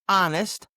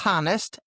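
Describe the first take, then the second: First: The word begins without an H sound. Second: The word begins with an H sound. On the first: The speaker calls it right. "a silent H" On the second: The speaker calls it wrong. "not honest"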